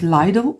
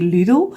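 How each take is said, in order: First: The name is said a non-Dutch way. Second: The name is said the Dutch way. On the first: "some people call it Lidl" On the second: "We here in the Netherlands we say Lidl"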